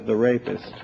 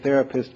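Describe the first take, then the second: First: "the rapist", split into THE plus RAY-pist; split as two words. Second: Said in the usual way. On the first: Shown as a demonstration. Lecturer reading out an audience member's test word, split as "the rapist". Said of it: "comes out as the rapist". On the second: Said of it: "see if therapist comes out as".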